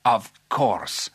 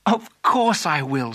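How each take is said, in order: First: Drawn-out royal assent; agreeable king. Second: Slow, emphatic glad acceptance; delighted Alice. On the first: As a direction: grant it grandly as a king. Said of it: "said the king". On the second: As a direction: accept the proposal wholeheartedly. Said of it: "said Alice". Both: Acted.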